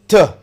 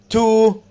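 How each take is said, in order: First: The vowel is weak and reduced. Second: The vowel is full and clearly pronounced.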